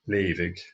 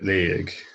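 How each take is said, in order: First: The middle consonant is pronounced as a v. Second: The middle consonant is silent and not pronounced. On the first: "the G H here is a V sound" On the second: "with a silent G H"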